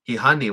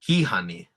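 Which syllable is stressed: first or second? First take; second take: second; first. First: The stress is not on the first syllable. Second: The stress is on the first syllable. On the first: The speaker calls it wrong. "I would always say hihani washte... but that was wrong" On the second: The speaker calls it right. "see that stress mark on the first syllable"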